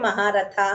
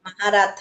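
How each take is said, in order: First: The word ends in a lengthened final vowel. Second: The word ends in a short final vowel. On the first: The speaker calls it wrong. "మహారథాహ అంటున్నావు... దీర్ఘాలు పెట్టేస్తున్నావు" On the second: The speaker calls it right. "మహారథ అంతే"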